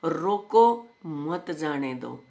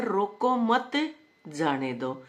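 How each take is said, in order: First: रोको set apart, then मत जाने दो as one phrase; slow, firm रोको, pause, then मत जाने दो; pause after रोको. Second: रोको मत joined, then a break before जाने दो; pause after मत. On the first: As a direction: break right after रोको, meaning stop them. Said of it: "ओड़े रोक दो". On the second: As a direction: slowly say रोको मत together, pause, let them go. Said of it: "अक भाई इसने जान दो". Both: Shown as a demonstration.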